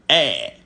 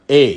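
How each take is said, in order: First: The vowel is said tense on a high pitch. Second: The vowel is said relaxed on a low pitch. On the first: "you constrict your windpipe. So that is a high energy sound" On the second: "the E without the tone mark, A, you open your mouth and your vocal cord is relaxed"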